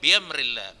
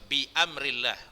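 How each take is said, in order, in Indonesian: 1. Bi menyambung ke amrillah tanpa hentian glotis. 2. Hentian glotis memisahkan bi dari amrillah.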